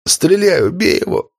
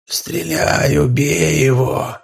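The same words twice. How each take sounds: First: A dying man's strained plea; weakening voice. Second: Slow eerie mimicking voice; shadow's echo. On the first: Acted. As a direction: plead with fading strength. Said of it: "попросил слабеющим голосом Данила". (слабеющий умоляющий голос) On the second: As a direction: echo the plea like a creeping monster. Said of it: "повторила тень". (жуткое повторение тени)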